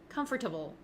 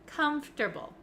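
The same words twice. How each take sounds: First: The middle 'or' sound is fully pronounced. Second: The middle 'or' sound is dropped. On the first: The speaker calls it wrong. "a lot of my students like to say comfortable, comfortable. And that sounds a little bit clunky and not really correct" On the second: The speaker calls it right. "We say comfortable, comfortable. So it sounds like it goes from F to T"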